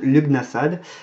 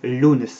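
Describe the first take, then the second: First: The name is said with a French pronunciation. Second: The name is said with an Irish pronunciation. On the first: "on le prononce à la française" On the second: "c'est du gaélique irlandais et ça se prononce en fait"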